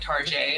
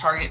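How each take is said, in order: First: The word ends with a soft zh sound. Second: The word ends with a hard t sound.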